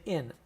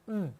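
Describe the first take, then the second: First: The word is said fully as 'in'. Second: The word is reduced to a short 'mm'. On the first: The speaker calls it wrong. "We don't say in" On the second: The speaker calls it right. "we pronounce it mm"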